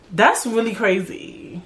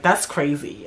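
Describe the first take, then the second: First: Slow, drawn-out sympathetic response; non-judgmental reaction. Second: Quick, low judgmental reaction; mad judgy. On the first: Shown as a demonstration. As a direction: react slowly, just listening without judging. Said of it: "Just listen and be like". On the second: Retold or imitated. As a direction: imitate a judgy friend, low and dismissive. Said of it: "y'all be saying it mad judgy".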